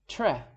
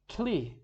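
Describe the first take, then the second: First: It ends in a short e, not ee. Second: It begins with tl instead of tr. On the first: "That's the wrong pronunciation" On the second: "If we pronounce it wrong"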